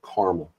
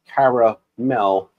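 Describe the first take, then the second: First: The word is said with two syllables. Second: The word is said with three syllables. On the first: The speaker calls it wrong. "not a caramel" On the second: The speaker calls it right. "because there's an A"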